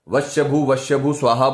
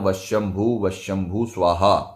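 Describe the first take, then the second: First: No nasal sound comes before each 'bhu'. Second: A nasal sound comes before each 'bhu'. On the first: The speaker calls it wrong. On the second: The speaker calls it right.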